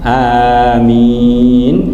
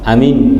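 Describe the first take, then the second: First: Both vowels are held long. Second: Both vowels are kept short. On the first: The speaker calls it right. "bisa sama-sama panjang amin" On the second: The speaker calls it wrong. "Tidak boleh dipendekkan semua"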